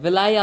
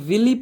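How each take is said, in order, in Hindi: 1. यह शब्द 'eye' ध्वनि पर खत्म होता है। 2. यह शब्द 'ee' ध्वनि पर खत्म होता है।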